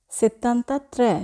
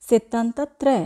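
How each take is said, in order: Both takes have the same delivery.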